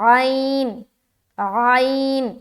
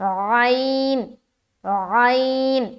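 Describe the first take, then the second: No difference in how they are said.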